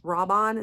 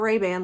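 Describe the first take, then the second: First: The name begins with a 'rob' sound. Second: The name begins with a 'ray' sound. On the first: The speaker calls it right. "somebody told me how to pronounce this correctly" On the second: The speaker calls it wrong. "not not Ray-Ban like the sunglasses"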